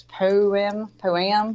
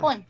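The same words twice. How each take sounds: First: "Poem" said as two clear syllables, po-em; daughter's careful two-syllable "poem". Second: "poem" squeezed into one syllable, poym; the one-syllable "poem" she's always said. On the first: Retold or imitated. Correcting her mother: "poem" in two syllables. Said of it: "She says". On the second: Shown as a demonstration. Mother insisting on her "poem": one syllable, poym. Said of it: "I'm pretty sure it's a poem".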